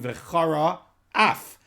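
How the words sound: A short pause separates the two words. It means that anger will blaze. The speaker calls it right. "we need to put in a little bit of a pause"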